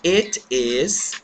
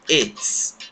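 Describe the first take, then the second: First: It is said as two separate full words. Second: It is said as one short contracted word.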